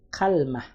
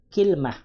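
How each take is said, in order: First: The first vowel is a, with no vowel after l. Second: The first vowel is i, with no vowel after l. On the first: "kafnya di fathah, ya lamnya disukun" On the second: "kafnya itu kasroh dan lamnya itu sukun"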